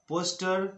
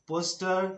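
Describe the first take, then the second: Both takes have the same delivery.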